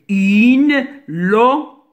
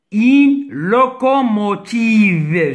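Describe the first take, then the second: First: Une locomotive broken into beats, lo, co, mo, tive; syllable by syllable. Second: Said in the usual way. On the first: Shown as a demonstration. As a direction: separate each syllable of locomotive with a pause. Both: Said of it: "Je répète".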